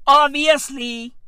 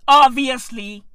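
Both takes have the same delivery.

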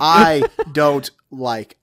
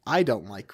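First: "I" punched hard and loud, then a slow, laughing "don't like"; stress on I. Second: Said in the usual way. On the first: Shown as a demonstration. Stressing "I" to show it's just his taste, laughing. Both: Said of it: "I emphasize the word".

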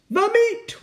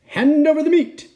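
First: Very high-pitched echoing cry; crew roar. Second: High, loud captain's order; pirate demand. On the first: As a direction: echo the demand as the crew. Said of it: "we all roared". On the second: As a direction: demand it across the table. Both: A narrator's reading.

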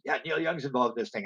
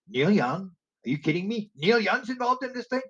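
First: Said in the usual way. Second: Sharply higher, stunned disbelief; incredulous. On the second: Retold or imitated. Teller retelling his shock at [name] news, incredulous. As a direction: ask it like you can't believe your ears.

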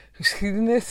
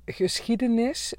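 First: Geschiedenis said with a lisp, the s pushed through the teeth; a playful, lisped geschiedenis. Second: Said in the usual way. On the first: Shown as a demonstration. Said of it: "dat ik echt zo, eh, zo slis". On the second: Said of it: "geschiedenis vind ik een heel moeilijk woord".

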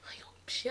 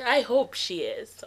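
First: Barely voiced, emotion catching the words; choked-up whisper. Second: Said in the usual way. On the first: Real, not acted. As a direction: whisper it, too moved to say it. Choked up answering her younger self.

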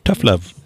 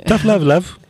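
First: Said in the usual way. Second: Higher sing-song teasing voice; playful put-on voice. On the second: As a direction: tease it in a put-on voice.

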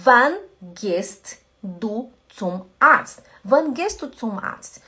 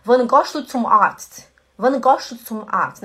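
First: Said in the usual way. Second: Swiss German gehst said as goscht; slow Swiss German accent with gohst. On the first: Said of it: "exemplo de alemão e suíço alemão". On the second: Shown as a demonstration. Teacher contrasting the Swiss German way with standard German. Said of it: "O suíço alemão falaria assim".

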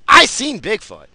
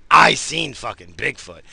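First: Emphatic claim. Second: Said in the usual way. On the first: Real, not acted. Repeats the claim louder.

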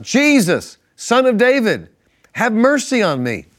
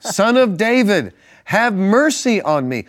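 First: High, loud cry of a blind beggar; shouting for mercy. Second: High, loud and slow pleading cry; shouting louder. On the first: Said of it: "he began to shout". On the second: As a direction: stretch the plea out high and loud. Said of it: "he only shouted louder". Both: A narrator's reading.

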